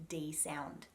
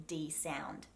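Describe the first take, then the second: No difference in how they are said.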